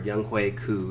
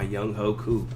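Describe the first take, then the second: First: The middle name is said as 'Hui'. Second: The middle name is said as 'Ho'. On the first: "is how it's actually pronounced" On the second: "everyone pronounce it"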